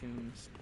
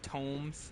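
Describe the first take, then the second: First: The vowel sounds like the one in 'room'. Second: The vowel sounds like the one in 'home'. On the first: "I just say like tombs" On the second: "are they pronounced like tomes?"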